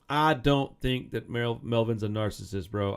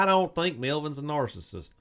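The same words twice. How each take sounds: First: Slow, drawled redneck accent on the words. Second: Said in the usual way. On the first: Real, not acted. Podcast host hears himself sound like a redneck, redneck accent. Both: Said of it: "I sound like a redneck on that one".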